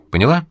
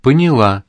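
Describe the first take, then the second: First: "Поняла" rising high as a question; checking question. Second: "Поняла" falling at the end as an answer; babbled answer. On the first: Man checks that the caller understood, questioning rise. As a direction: ask "Поняла" with a lifted ending. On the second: Frightened caller confirms to the man, mildly babbled falling answer. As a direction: answer "Поняла" with a drop in pitch. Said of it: "пролепетала она еле слышно". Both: A narrator's reading.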